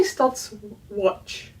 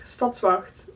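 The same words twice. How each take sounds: First: Stadswatch said the English way, stad-swatch, slow and drawn out; English pronunciation. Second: Stadswacht said the Dutch way, stat-svacht ending in a throaty ch; Dutch pronunciation. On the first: Giving viewers the anglicized form, English pronunciation. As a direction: Stadswatch with an English watch at the end. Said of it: "Or they say". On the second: Contrasting it with the English version for viewers, Dutch pronunciation. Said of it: "Or they say Stadswatch". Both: Shown as a demonstration.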